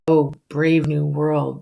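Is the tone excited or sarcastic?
sarcastic. It sounds mocking and full of disgust. The speaker is disgusted by what he sees.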